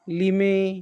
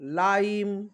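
First: It is read as two syllables, 'lee-meh'. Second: It is read as one syllable, 'lyme'. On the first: The speaker calls it wrong. "ते विद्यार्थी असे वाचू शकतात" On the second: The speaker calls it right. "ल आईम म्हणजे लाईम"

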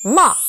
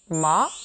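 First: It starts sharply and drops, short. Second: It rises quickly in a short sound. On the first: "사성은 어, 짧게 첫음을 탁 쳐주는 느낌" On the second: "이성은요, 짧게 감아쳐 올라가는데요"

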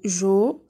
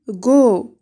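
First: The syllable starts with a soft j sound. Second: The syllable starts with a hard g sound. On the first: The speaker calls it wrong. "لا نقول جو" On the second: The speaker calls it right. "بل go"

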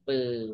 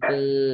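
First: The syllable has a low tone. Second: The syllable has a level mid tone.

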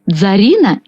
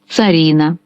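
First: The word begins with a dz sound. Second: The word begins with a ts sound. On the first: "може звучати у двох варіантах – як «дз» і як «ц»" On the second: "може звучати у двох варіантах – як «дз» і як «ц»"

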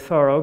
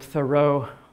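First: The name is said the family's hometown way. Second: The name is said the widely used way. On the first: This is how the family and hometown say it. "that is the way the family pronounced the name" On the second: This is how many people usually say it. "if you've been calling him Thoreau all your life"

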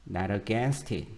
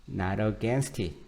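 The two takes are said the same way.

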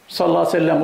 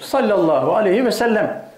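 First: It is rushed, with syllables swallowed. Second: It is unhurried, with every syllable said fully. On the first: The speaker calls it wrong. "kelimeleri yutuyor" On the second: The speaker calls it right. "Acele etme hocam. Kelimenin hakkını ver"

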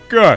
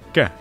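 First: The word is said in a loud, forceful voice. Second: The word is said in a soft, gentle voice.

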